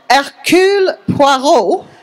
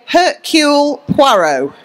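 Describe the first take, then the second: First: The name is said in a French accent. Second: The name is said without a French accent. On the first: "if you want to say it in a proper French accent" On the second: "so I say"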